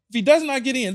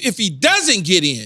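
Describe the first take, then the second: First: Both words 'does not' are said in full. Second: The words are contracted into 'doesn't'. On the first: The speaker calls it wrong. "that doesn't sound right" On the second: The speaker calls it right. "It's if he doesn't get in"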